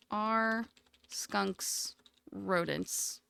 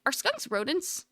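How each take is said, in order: First: Slow, drawn-out question. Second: Said in the usual way. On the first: Real, not acted. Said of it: "slow repeat". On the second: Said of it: "first ask".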